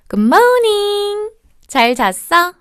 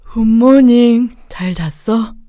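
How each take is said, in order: First: The greeting is bright, loud and full of energy. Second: The greeting is low, quiet and without energy. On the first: The speaker calls it right. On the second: The speaker calls it wrong.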